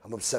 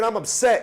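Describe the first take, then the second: First: It is said flatly, without real emotion. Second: It is said with strong, heated emotion. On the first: The speaker calls it wrong. "That's not how you say it" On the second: The speaker calls it right. "And that's how you talk"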